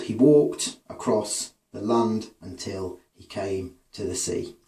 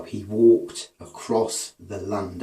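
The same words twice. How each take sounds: First: Slow, reading with the beat. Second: "he WALKED a-CROSS the LAND" said very slowly, each second syllable hit; iambic beat stressed. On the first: Teacher reads the line to show its meter, slowly. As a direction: read the line slowly, letting the beat carry it. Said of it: "was the beat he tramped to now". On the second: Teacher shows students the iambs, slowly stressing "walked" and "land". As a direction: tap out "walked" and "land" as the strong beats, very slow. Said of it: "the first, uh, syllable is unstressed and the second is stressed". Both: Shown as a demonstration.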